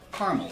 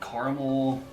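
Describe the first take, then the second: First: It is said with two syllables, carmel. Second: It is said with three syllables, car-a-mel. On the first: This is how most people in Texas say it. "Here in Texas, most we say caramel, C A R M E L" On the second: This is how some other people say it. "Some people say caramel"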